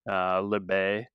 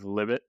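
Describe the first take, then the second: First: The name ends in an ay sound, t silent. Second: The name ends with a clearly sounded t. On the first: "my high school French that has determined that I pronounce his name Libet" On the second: "instead of Libet"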